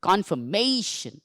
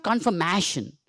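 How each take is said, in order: First: "Confirmation" said slowly as con-fer-MAY-shun; correct pronunciation. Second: "confirmation" said as con-fer-MASH-un; short A as in cat in "confirmation"; wrong pronunciation. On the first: Teacher showing the class the right sound, correct pronunciation. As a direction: stretch the AY in "Confirmation", slow and measured. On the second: Teacher warning the class off an error, wrong pronunciation. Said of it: "It is not confirmation". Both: Shown as a demonstration.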